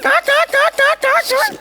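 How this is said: It is said in the puppet's put-on voice.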